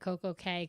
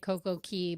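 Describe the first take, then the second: First: The last word rhymes with 'say'. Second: The last word rhymes with 'see'. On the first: It does not follow the local Bahamian pronunciation. The speaker calls it wrong. "that's wrong" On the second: It follows the local Bahamian pronunciation. The speaker calls it right. "I pronounce it Key like the Bahamians"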